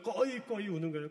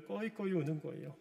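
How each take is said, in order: First: 꺼이꺼이 voiced higher as a sobbing wail; mock wailing. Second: Said in the usual way. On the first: Shown as a demonstration. Pastor showing the congregation how 꺼이꺼이 sounds, mock wail. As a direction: act out 꺼이꺼이 like choking sobs. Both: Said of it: "목이 멜 정도로 막 우는 거예요".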